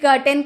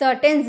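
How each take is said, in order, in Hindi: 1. शब्द की शुरुआत K ध्वनि से होती है। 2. शब्द की शुरुआत S ध्वनि से होती है। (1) "कर्टेन मीन्स पर्दा" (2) "आपने कभी ना कभी ये गलती की है"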